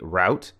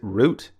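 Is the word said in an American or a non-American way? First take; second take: American; non-American. First: The word is said in an American way. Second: The word is said in a non-American way. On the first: "pronounce it in this American way" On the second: "you might pronounce it root"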